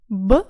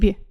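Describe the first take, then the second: First: The consonant is said hard. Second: The consonant is said soft. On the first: "So the hard one" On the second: "and the soft one"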